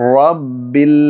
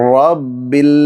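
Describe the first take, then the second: Both takes have the same delivery.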